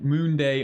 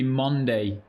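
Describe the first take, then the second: First: The first syllable has a long 'oo' vowel. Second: The first syllable has a short 'uh' vowel. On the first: This is how it is said locally. "where I live, it pronounces Moon Day" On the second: This matches how 'monster' is said. "as you would say monster"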